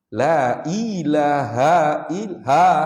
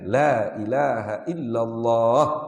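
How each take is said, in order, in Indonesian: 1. Kata terakhir punya vokal pendek dan terpotong. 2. Kata terakhir punya vokal yang dipanjangkan. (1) "Tak panjang tu" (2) "kena ada mat tu"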